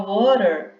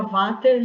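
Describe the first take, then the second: First: American water with a flapped T; American accent. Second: Water said vater, W turned into a V sound; wrong pronunciation. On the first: Teacher shows water said with an accent, not an error. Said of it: "é um sotaque". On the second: Teacher shows water pronounced wrong, vater. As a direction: mispronounce water with a V. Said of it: "já tá errado". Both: Shown as a demonstration.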